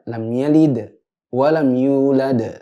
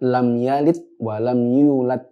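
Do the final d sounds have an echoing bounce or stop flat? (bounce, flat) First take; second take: bounce; flat. First: The final d sounds end with an echoing bounce. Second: The final d sounds stop flat without a bounce. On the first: The speaker calls it right. "Yang benar" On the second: The speaker calls it wrong. "Kalau orang baca"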